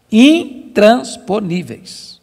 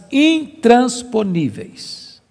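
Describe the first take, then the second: First: "Intransponíveis" very slow, syllable by syllable; emphatic repetition. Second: Said in the usual way. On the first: Shown as a demonstration. Preacher repeats the word to the congregation, "Intransponíveis" slowly broken into forceful syllables. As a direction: hammer out each syllable of "Intransponíveis".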